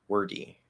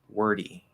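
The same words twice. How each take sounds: First: The middle d is a clear, full stop. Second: The middle d is a quick light flap. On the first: The speaker calls it wrong. "What if we don't flap the d? ... really clearly enunciating it" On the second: The speaker calls it right. "tap the D as we go on our way to E"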